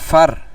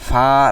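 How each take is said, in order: First: The vowel is short and quick. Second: The vowel is drawn out long. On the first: The speaker calls it right. "হরকতের উচ্চারণ তাড়াতাড়ি করতে হবে" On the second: The speaker calls it wrong. "ফার এরকম টান দেব না"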